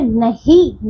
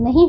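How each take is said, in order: First: नहीं drawn out as "na-hee", without nasal ending; mispronounced word. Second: नहीं with a nasalised ending; correct pronunciation. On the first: Teacher shows pupils the wrong word, mispronounced. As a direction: say नहीं slowly with a pure final "ee". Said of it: "नहीं बच्चों". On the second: Teacher corrects the word for pupils, properly pronounced. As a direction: let the end of नहीं go through the nose. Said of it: "नहीं होता है". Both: Shown as a demonstration.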